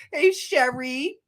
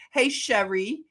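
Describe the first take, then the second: First: Said in the usual way. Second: Philly-style greeting to Sherry; Philly accent. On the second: Shown as a demonstration. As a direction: say Sherry the Philadelphia way. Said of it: "say it like we say it in Philly".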